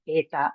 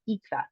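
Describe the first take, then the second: First: The word begins with an 'eh' vowel. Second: The word begins with an 'ee' vowel. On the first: This is the classical way of saying it. "instead of eta" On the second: This is the modern Greek way of saying it. "normally use the modern pronunciation and talk about ita"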